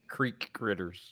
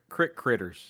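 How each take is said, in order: First: Creek is said with a long ee vowel. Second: Creek is said as crick, Southern style.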